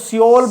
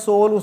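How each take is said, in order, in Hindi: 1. यह नाम दो अक्षरों में बोला जाता है। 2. यह नाम एक ही अक्षर में बोला जाता है।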